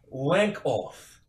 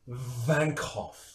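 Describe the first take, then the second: First: The name starts with a W sound. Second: The name starts with a V sound. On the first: The speaker calls it wrong. "It is not pronounced W" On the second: The speaker calls it right. "It is pronounced Vankoff"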